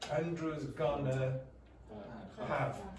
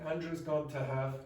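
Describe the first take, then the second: First: Going to is reduced to gonna. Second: Going to is said in full.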